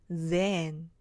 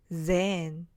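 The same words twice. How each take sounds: No difference in how they are said.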